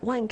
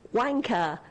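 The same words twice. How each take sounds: First: The word sounds more American. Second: The word sounds more British. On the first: The speaker calls it wrong. "no, you're not saying it right" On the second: The speaker calls it right. "yeah, that's better"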